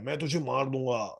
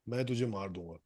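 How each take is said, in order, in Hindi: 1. यह पंक्ति ज़ोर से चिल्लाकर बोली गई है। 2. यह पंक्ति धीरे से बोली गई है। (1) "जोर जोर से चिल्ला रहा है" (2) "तेरे पास आके बोलता है"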